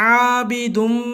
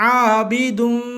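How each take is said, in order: Both takes have the same delivery.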